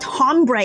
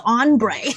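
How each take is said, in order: First: It starts with an audible H sound. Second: It starts directly with the vowel, no H. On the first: The speaker calls it wrong. "not hombre" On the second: The speaker calls it right. "you guys don't pronounce the H"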